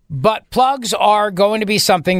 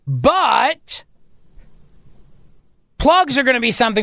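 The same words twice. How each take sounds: First: The phrase is read fast without a pause. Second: The phrase is read slowly with a pause.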